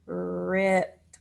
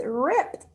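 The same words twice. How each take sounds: First: "Ripped" with long r and detached final t; stretched sounds. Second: Said in the usual way. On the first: Shown as a demonstration. Teacher lets pupils blend the new word, stretched sounds. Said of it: "our new word is". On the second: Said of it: "What's the new word".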